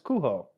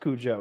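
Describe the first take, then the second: First: The name is said with Spanish sounds. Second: The name is said with English sounds. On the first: The speaker calls it right. "It's Cujo. It's Spanish" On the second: The speaker calls it wrong. "It's not supposed to be pronounced Cujo"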